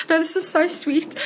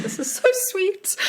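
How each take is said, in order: First: High and a little louder, insisting; gushing. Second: Very high, gushing squeal of delight. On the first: Author insisting to the child how sweet it is, high and gushing. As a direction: repeat it, even more touched. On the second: Author retelling her delight at a child wanting a signature, squealing high. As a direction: melt at the kid's request. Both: Retold or imitated.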